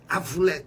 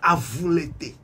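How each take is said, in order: First: The name ends in an open 'et' sound. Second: The name ends in a closed 'ay' vowel. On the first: The name is Frenchified and loses its meaning. The speaker calls it wrong. "ils ont mis accent grave, on dit Avoulette" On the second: The name keeps its original form and meaning. The speaker calls it right. "au lieu de dire l'été"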